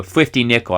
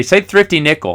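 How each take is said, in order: First: Thrifty said as fifty, th to f; childlike f for thr in "Thrifty Nickel"; lisped thr. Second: Said in the usual way. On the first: Retold or imitated. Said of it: "She couldn't say three or thrifty". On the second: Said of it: "she couldn't say T H R".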